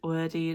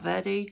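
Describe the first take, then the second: First: The name begins with a W sound. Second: The name begins with a V sound. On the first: The speaker calls it right. "It is Wordy" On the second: The speaker calls it wrong. "not Verdi"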